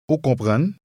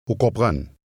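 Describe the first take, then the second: First: The voice rises at the end, a question. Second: The voice falls at the end, a statement.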